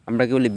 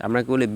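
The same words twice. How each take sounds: The two takes are said the same way.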